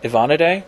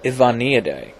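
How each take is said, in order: First: Ivanidae as a higher question, rising at the end; unsure pronunciation. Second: Ivanidae as a statement, pitch falling at the end; tentative pronunciation. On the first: Vlogger guessing at a wasp family name, Ivanidae with questioning rise. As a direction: try Ivanidae as if asking, pitch lifting. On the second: Vlogger attempting a wasp family name, Ivanidae with falling end. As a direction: sound out Ivanidae and let it drop. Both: Shown as a demonstration. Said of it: "I'm gonna mispronounce this horribly probably".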